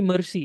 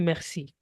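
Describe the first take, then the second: First: It is pronounced like the English word mercy. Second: It is pronounced with a French sound. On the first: The speaker calls it wrong. "It won't be mercy as we have in English" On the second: The speaker calls it right. "It will be merci"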